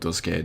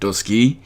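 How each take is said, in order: First: The last syllable ends with an 'ay' sound. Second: The last syllable ends with an 'ee' sound. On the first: "I'm just going to call it Duscae" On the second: "may be pronounced episode Dusky because A E is generally pronounced as a Y"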